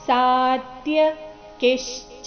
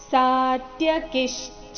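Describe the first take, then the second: First: The word is said with a break inside. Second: The word is said smoothly without a break.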